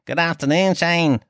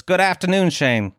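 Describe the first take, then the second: First: Hammed-up Leeds accent, pitched higher throughout. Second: Put-on a first light go at a Leeds accent; higher opening, Leeds-accented greeting. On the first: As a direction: lay the mock Leeds accent on thicker. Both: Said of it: "Is that even a Leeds accent?".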